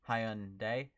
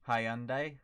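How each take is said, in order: First: It is said the Korean way. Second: It is said the British and Australian way.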